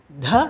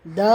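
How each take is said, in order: First: Breathy dental "dha" with a puff on த; த as a heavy "dha"; aspirated voiced த. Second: த voiced, without a puff; unaspirated voiced த. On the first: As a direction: push air through a voiced த. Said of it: "மகாபிரான்". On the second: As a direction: say த as an easy "da". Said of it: "அல்ப பிரான் த". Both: Shown as a demonstration.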